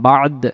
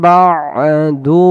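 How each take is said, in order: First: The word ends on a consonant, with a stop. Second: The word ends on a vowel, flowing onward. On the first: The reciter pauses here. "এই জায়গায় দমটা ছেড়ে দেওয়া" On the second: The reciter continues without pausing. "বা'দু বলে চলে যাব"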